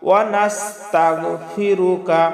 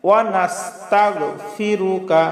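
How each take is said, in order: Both takes have the same delivery.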